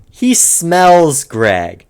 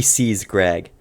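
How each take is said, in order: First: He smells Greg, with smells drawn out slowly and leaned on; pointed slow correction on smells; slow stress on smells. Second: Said in the usual way. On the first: Shown as a demonstration. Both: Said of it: "Now let me correct that".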